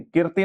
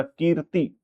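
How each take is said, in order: First: कीर्ति with a short i, "kirti"; wrong short vowel. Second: कीर्ति with a drawn-out "keer"; long ee. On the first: Teacher rejecting the misspelling for students, कीर्ति with short i. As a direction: clip the first vowel of कीर्ति. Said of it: "कीर्ति नहीं". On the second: Teacher correcting for students, कीर्ति with long ee. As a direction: lengthen the first vowel of कीर्ति. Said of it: "बड़ी की मात्रा". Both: Shown as a demonstration.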